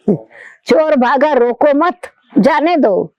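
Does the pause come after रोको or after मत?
after मत. The pause comes right after मत. Don't stop the thief, let him go. "The thief is running away, don't stop him"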